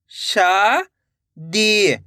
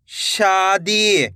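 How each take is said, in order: First: "शादी" split into two long syllables. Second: Said in the usual way. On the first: Shown as a demonstration. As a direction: draw out शा, pause, then दी in "शादी". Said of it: "एक एक अक्षर का उच्चारण". ("शादी" को तोड़कर, शा... दी) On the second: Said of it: "तो मिलके बन जाएगा".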